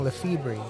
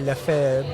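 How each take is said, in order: First: The name is said with an American English pronunciation. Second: The name is said with a French pronunciation. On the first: It was meant to help the family blend in. "they started saying Lefebvre" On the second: It is the original form of the name. "initially Lefebvre, right? It was French"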